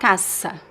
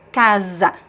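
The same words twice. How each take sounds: First: The middle consonant is a hissing s sound. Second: The middle consonant is a buzzing z sound. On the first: The speaker calls it wrong. "It's not casa" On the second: The speaker calls it right. "bec- it becomes Z"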